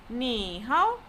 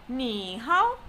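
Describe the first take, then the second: The two takes are said the same way.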